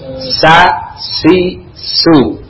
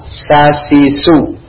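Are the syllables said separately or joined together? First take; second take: separately; joined. First: The syllables are separated by small breaks. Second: The syllables run together without any breaks. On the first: "ketika diputus" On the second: "ketika dilangsungkan"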